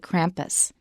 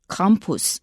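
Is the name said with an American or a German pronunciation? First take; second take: American; German. First: The name is said with an American pronunciation. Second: The name is said with a German pronunciation. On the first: "if it were an American reading it, they'd probably say" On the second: "saying it with a German pronunciation"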